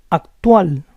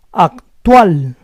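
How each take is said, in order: First: Said in the usual way. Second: Actual split as ac-TUAL; syllable by syllable. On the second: Shown as a demonstration. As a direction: say Actual in parts, stressing TUAL. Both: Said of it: "try to understand the rules".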